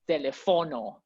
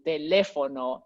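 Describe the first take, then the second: First: The stress is on a different syllable. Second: The stress is on the second syllable. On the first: The speaker calls it wrong. "it's not telefono" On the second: The speaker calls it right. "where the stress syllables are"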